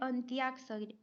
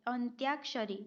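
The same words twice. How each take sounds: First: It is said 'antyakshari' with a 'y' sound. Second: It is said 'antyakshari' with a 'y' sound.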